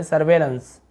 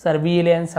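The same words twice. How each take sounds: First: सर्वेलेंस with 've' in the middle, 'sar-vay-lens'; सर्वेलेंस said as sar-VAY-lens; ay vowel. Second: सर्विलेंस with 'vi' in the middle, 'sar-vi-lens'; सर्विलेंस said as sar-VI-lens; everyday short i. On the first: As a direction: say सर्वेलेंस with a long e after व. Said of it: "ईआई है लेकिन ए पढ़ रहे हैं". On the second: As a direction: say सर्विलेंस with an i vowel after व. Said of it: "हम लोग ऐसे बोल देते हैं". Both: Shown as a demonstration.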